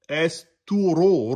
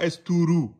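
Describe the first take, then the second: First: The final syllable has an open 'o' vowel. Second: The final syllable has a closed 'oo' vowel. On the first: The speaker calls it right. "c'est la lettre ra emphatique parce qu'elle porte la damma. Donc, c'est o" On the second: The speaker calls it wrong. "C'est pas esturu"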